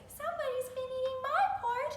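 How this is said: It is said in a high, squeaky voice.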